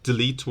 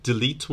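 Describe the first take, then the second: No difference in how they are said.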